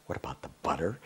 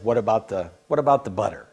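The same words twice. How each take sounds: First: Soft, lower, baffled repeat; puzzled mutter. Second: Said in the usual way. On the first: Retold or imitated. Speaker repeating the guru's question to himself, quiet and puzzled. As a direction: echo it to yourself, lost. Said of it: "I was kinda going". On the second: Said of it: "let's just say he said".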